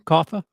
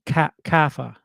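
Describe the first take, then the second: First: Kaffa with a New York open aw; New York accent Kaffa. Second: Kaffa with a long drawn A; dragged A Kaffa. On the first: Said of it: "my New York accent coming through". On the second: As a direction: drag the A in Kaffa. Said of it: "you gotta drag the A". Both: Shown as a demonstration.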